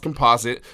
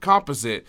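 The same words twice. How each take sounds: First: The word is said with its usual pronunciation. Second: The word is said to rhyme with opposite. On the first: The speaker calls it right. "I know it's pronounced composite" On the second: The speaker calls it wrong.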